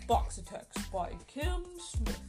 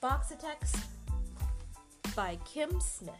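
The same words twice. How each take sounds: First: It is read in an imitation of Daddy's voice. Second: It is read in a silly monkey voice.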